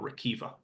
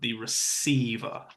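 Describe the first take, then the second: First: The middle consonant is not an S sound. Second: The middle consonant is an S sound. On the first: The speaker calls it wrong. "not the retriever or receiver" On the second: The speaker calls it right. "that C makes an S sound"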